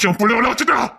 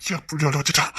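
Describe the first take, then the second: First: Mock wounded father cry; hurt outcry. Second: First take low and softer; quiet hurt muttering; soft grievance. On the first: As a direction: raise the complaint in a pained cry. Second take higher. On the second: Acted. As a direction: murmur it, hurt.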